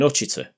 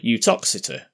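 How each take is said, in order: First: The name is shortened and said casually. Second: Every syllable of the name is said carefully.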